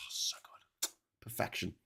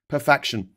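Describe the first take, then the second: First: Breathy hushed savoring; whispered delight. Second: 1 excited. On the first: Savoring the toast in a hushed whisper. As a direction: whisper it like tasting bliss. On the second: Loud repeat after whisper. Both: Real, not acted.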